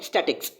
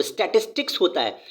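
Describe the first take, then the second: First: "स्टैटिक्स" said as sʈeʈɪks, the common mistake; wrong pronunciation. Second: "स्टैटिस्टिक्स" with the full middle syllable, sʈeʈɪsʈɪks; correct pronunciation. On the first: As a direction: mispronounce it "स्टैटिक्स" the wrong way on purpose. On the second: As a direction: spell out "स्टैटिस्टिक्स" carefully and correctly. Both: Shown as a demonstration. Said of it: "भाई स्टैटिक्स नहीं होता है वो".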